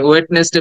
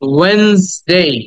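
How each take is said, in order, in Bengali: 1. প্রথম d ধ্বনিটি স্পষ্টভাবে উচ্চারিত হয়। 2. প্রথম d ধ্বনিটি বাদ দেওয়া হয়। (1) "অনেকে ওয়েডনেসডে বলেছি" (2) "উচ্চারণটা হওয়া উচিত ছিল ওয়েনসডে"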